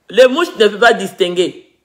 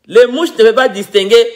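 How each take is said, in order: Both takes have the same delivery.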